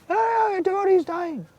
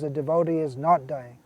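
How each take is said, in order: First: High-pitched mocking wail; mock objector. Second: Said in the usual way. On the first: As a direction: mimic a silly, alarmed doubter in falsetto. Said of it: "Now if somebody argues". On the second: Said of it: "Prabhupada says".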